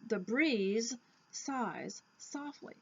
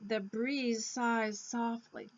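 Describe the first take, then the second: First: The end and start sounds are said separately. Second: The end and start sounds are blended together.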